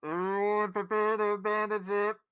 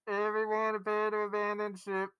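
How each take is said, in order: First: Loud, high intercom announcement; muffled static intercom call; shouting abandon ship. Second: Shouting abandon ship. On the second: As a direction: repeat the intercom warning, calmer. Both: Acted. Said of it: "hear the muffled, statically intercom".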